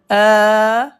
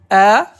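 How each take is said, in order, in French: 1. La voyelle est tenue nettement plus longtemps. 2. La voyelle est courte et rapide. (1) "on reste plus longtemps" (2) "Un trait sur la lettre, c'est la voyelle A"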